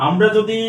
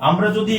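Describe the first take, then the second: The two takes are said the same way.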